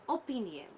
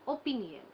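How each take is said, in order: The two takes are said the same way.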